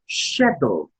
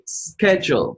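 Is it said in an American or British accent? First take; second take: British; American. First: It is said in a British accent. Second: It is said in an American accent.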